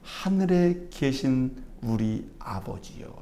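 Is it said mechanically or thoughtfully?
thoughtfully. It is said thoughtfully as a real prayer.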